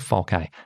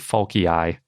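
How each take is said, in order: First: The name ends with one final vowel sound. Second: The name ends with two final vowel sounds. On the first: "But I always hear falci" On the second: "now I'm wondering if it should be falcii, since there's two eyes"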